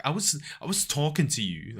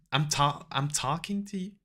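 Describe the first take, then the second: First: Said in the usual way. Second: Put-on higher, unsure American accent; attempted American accent. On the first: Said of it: "nah, that's not how, how she says it". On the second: Imitating American lady telling off a man, tentative American accent. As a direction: have a shaky go at sounding American. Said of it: "I can't do an American accent".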